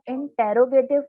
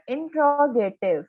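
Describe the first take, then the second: First: इंटेरोगेटिव with an extra "e" after the t; इंटेरोगेटिव, five syllables with "te-ro" pulled apart; mispronounced interrogative. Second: इंट्रोगेटिव with t and r run together as "tro"; slow, careful इंट्रोगेटिव, no vowel between t and r; corrected pronunciation. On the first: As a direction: say इंटेरोगेटिव as in-te-ro-ge-tiv. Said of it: "इसको हम इंटेरोगेटिव नहीं पढ़ेंगे". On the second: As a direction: say इंट्रोगेटिव slowly as in-tro-ge-tiv. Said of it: "ये है इंट्रोगेटिव". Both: Shown as a demonstration.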